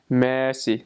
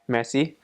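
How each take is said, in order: First: Each syllable is enunciated clearly and separately. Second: The syllables are blended smoothly together. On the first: This is how people in Luxembourg say it. "They'll they'll really enunciate on each syllable" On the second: This is how people in France say it. "in France they'll say like merci"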